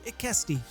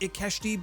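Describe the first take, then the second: First: The middle consonant is a plain 's' sound. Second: The middle consonant is a 'sh' sound. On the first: The speaker calls it right. "there's no H, so Ikesti" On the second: The speaker calls it wrong. "I've pronounced it as Ikeshti"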